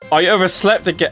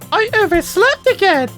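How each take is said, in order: First: It is read in his normal voice. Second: It is read in a put-on character voice.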